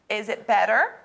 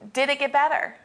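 First: It is said in a sassy tone. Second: It is said in a sincere tone.

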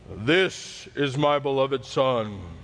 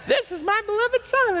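First: It is said in a loud, deep voice. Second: It is said in a high-pitched voice. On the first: "everybody always does God's voice like that" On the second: "Maybe God has a real high-pitched voice"

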